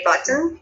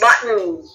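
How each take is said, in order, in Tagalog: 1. Malinaw ang pagbigkas sa T sa gitna. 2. Hindi malinaw ang pagbigkas sa T sa gitna. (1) "you can sound the T" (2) "Sa kanila it's button"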